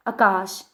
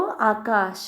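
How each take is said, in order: First: आकाश said the regional way, long vowel marks dropped; Punjabi-style mispronunciation. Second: आकाश with its full long vowels, said slowly and carefully; correct pronunciation. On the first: Teacher demonstrates how Punjabi speakers say the word, regional pronunciation. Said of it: "अक्सर वो लोग इस प्रकार से बोलते हैं". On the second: Teacher models the correct Hindi word for students, careful pronunciation. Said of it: "सही word ये है". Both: Shown as a demonstration.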